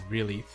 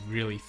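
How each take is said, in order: The two takes are said the same way.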